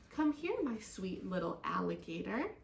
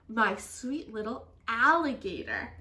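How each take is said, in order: First: Soothing, slightly lowered mother's voice; gentle. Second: Louder quote landing on "alligator"; emphatic retelling. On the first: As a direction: coax your little one tenderly. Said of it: "in a voice as gentle as a whispering grass". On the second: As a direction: repeat it with "alligator" punched loud, then falling. Frog retells it emphatically to friends. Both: A narrator's reading.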